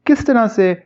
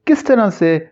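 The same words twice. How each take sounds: The two takes are said the same way.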